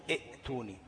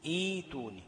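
First: "ائتوني" as i, glottal stop, tuni; short i cut by a catch in "ائتوني"; the not-to-say form of "ائتوني", hamza kept; sounded hamza. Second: "ايتوني" with a long drawn ee, no glottal stop; long i replacing hamza. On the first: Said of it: "ما بقولش". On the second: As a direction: stretch the opening ee of "ايتوني". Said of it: "بقول إيه؟". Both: Shown as a demonstration.

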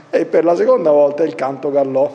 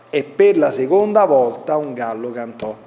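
First: Imita l'errore dicendo "il canto gallò" invece di "il gallo cantò"; rifà scherzando lo sbaglio "il canto gallò", parole invertite; lapsus imitato. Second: Said in the usual way. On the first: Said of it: "come una volta qualcuno si sbagliò durante la liturgia". (imita il lettore che in liturgia disse "il canto gallò") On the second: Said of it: "come una volta qualcuno si sbagliò".

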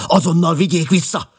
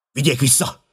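First: Very high, loud command; forceful, high-pitched order; insistent shout. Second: High, urgent shout; raised-voice order to halt. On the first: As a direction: shout it harder, demanding instant obedience. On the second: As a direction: call out a sharp command. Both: A narrator's reading. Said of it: "kiáltotta".

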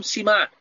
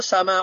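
First: سماع said as "سِماع" with a short i in the first syllable; wrong pronunciation. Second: سماع said as "سَماع" with an open a in the first syllable; correct pronunciation. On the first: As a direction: demo the mistake: سماع as "سِماع". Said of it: "لا أريد أن أسمع منكم سماع". (نطق خاطئ: سماع بكسر السين "سِماع") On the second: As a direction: model it right: سماع as "سَماع". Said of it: "وإنما أقول سماع". (النطق الصحيح: سماع بفتح السين "سَماع") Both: Shown as a demonstration.

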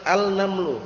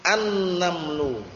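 First: "al-namlu" with an audible l before the n; unmerged article, "al-namlu"; wrong clear al. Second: Slow "an-namlu" with a held double n; "an-namlu", no l, n drawn out; silent lam. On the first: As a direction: keep the l in "al-namlu". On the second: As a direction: melt the article into a long n in "an-namlu". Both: Shown as a demonstration.

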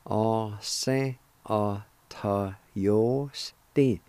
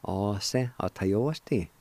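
First: "a se a ta yo sti" drawn out slowly, syllable by syllable; slow it right down for learners. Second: Said in the usual way. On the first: Shown as a demonstration. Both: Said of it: "And together".

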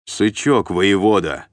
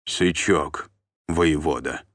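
First: Loud, firm military correction; stern correction. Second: Subdued, obedient echo; submissive repetition. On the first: Sergeant correcting a captive's address, stern and loud. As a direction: drill the title into him, louder. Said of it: "поправил его десятник". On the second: Beaten captive repeating the title, submissive and subdued. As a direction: repeat it meekly, as if cowed. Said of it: "покорно повторил побитый". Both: A narrator's reading.

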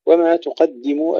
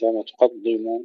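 First: تقدموا with thin, clear doubled d; light dal. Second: تقدموا with thickened, dark doubled d; wrong heavy dal. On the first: Teacher models وما تقدموا, light dal. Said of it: "أيضًا ترقيق الدال". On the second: Teacher shows what to avoid, heavy dal in تقدموا. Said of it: "وليس". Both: Shown as a demonstration.

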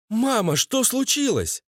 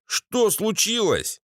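First: High-pitched wife asking her mother; wife's voice. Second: High, slow question; bespectacled husband's voice. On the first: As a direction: ask high, lightly voicing a woman. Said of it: "Голос жены Валеры". (высокий голос жены) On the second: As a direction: ask slowly, pitched up, as a meek husband. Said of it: "Голос очкарика". (высокий протяжный вопрос очкарика) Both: A narrator's reading.

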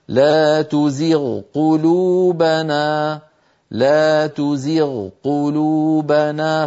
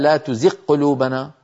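First: تزغ قلوبنا with the ghayn fully sounded then the qaf, very slow; clear correct recitation. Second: تزغ قلوبنا with the ghayn swallowed into a doubled qaf, at normal pace; wrong merged reading. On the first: Teacher demonstrating the required clear reading, very slow. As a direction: recite twice, very slowly, separating ghayn and qaf. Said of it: "بل لا بد من إظهارها هكذا". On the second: Teacher showing the merging nobody reads, said plainly. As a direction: say it quickly with the ghayn fused into the qaf. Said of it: "يعني ما أحد قال". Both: Shown as a demonstration.

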